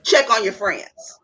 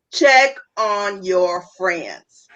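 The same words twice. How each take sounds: First: Said in the usual way. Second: Slowed right down, each word weighted; deliberate slow restatement; slow emphatic repeat. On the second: Shown as a demonstration. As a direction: spell it out slowly so it sinks in.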